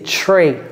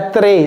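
First: The t and r are pronounced the English way. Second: The t and r are pronounced the French way. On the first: The speaker calls it right. "c'est très" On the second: The speaker calls it wrong. "C'est pas très"

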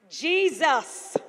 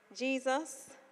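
First: The word is shouted loudly with strong force. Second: The word is said at a normal, quiet level. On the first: The speaker calls it right. "he shouted" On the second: The speaker calls it wrong. "I don't even think he said it like that"

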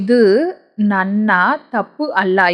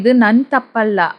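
First: The words are said fully and separately. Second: The words are shortened and run together.

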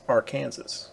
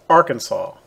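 First: It is said the way the river's name sounds. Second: It is said the way the state's name sounds. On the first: It names the river. "This river, same name on paper, is pronounced Arkansas" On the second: It names the state. "the state is pronounced Arkansas"

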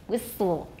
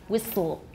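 Both takes have the same delivery.

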